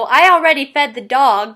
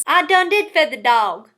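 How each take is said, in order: First: Said in the usual way. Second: Drawled Southern twang; Southern accent. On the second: Shown as a demonstration. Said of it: "the Southern way of speaking".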